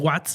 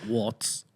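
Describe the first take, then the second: First: Watts is pronounced with Spanish sounds. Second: Watts is pronounced with English sounds, like water. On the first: The speaker calls it wrong. "no se dice Watts" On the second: The speaker calls it right. "sino que se dice Watts ... Watts, Water"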